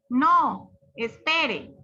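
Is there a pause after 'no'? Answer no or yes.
yes. There is a pause after the word no. The listener is asked to wait. "Una coma puede ser una pausa. ... Entonces, ¿qué hace uno? Pues esperar"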